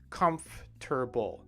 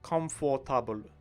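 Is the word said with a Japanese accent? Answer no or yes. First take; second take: no; yes. First: It is said with a native English pronunciation. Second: It is said with a Japanese-style pronunciation. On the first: The speaker calls it right. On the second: The speaker calls it wrong.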